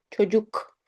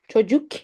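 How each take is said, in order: First: "çocuk" with a back u and back final k; correct pronunciation. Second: "çocuk" with a light, fronted final k; mispronounced "çocuk" with a sharp front k; wrong pronunciation. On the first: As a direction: say "çocuk" as cho-JOOK, k kept at the back. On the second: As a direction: say "çocuk" wrongly as cho-jukh, k too far forward. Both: Shown as a demonstration. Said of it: "çocuk is wrong".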